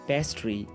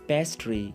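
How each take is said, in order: No difference in how they are said.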